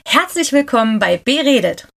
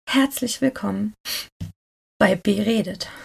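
First: It is said in a happy tone. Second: It is said in a sad tone.

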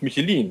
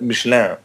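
First: Michelin is pronounced the plain German way. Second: Michelin is pronounced the French way, like the Swiss.

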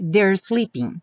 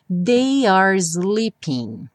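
First: They and are merge into one quick syllable. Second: The words they and are are said separately.

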